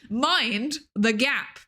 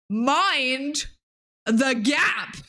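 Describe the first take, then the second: First: The words have shorter pauses between them. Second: The words have longer pauses between them.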